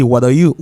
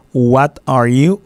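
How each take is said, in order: First: "what are you" linked, T as a quick D; flat T. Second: "what are you" slowly, each word separate; careful full form. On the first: Teacher showing how Americans say it, flat T. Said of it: "on dit rapide". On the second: Teacher giving the written example, slow and careful. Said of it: "Hein, exemple". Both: Shown as a demonstration.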